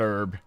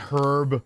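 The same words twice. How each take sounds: First: The word begins without an H sound. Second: The word begins with a clear H sound.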